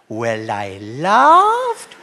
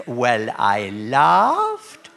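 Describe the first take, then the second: First: Very slow, rising drawn-out "laughed". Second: Very slow drawn-out "laughed". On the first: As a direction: let the word swell into a laugh. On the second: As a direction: stretch it out like a long chuckle. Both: Acted. Old lady drawn-out laugh.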